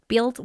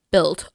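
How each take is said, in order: First: "Build" with an off, drawn-out vowel; odd pronunciation. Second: Said in the usual way. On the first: Real, not acted. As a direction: question your own odd "Build". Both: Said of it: "Why do I keep saying it like that?".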